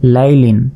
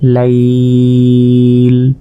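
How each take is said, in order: First: The word ends with the full -lin ending. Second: The word stops short on a plain l sound. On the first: The reading continues without stopping. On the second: The reader pauses at this word.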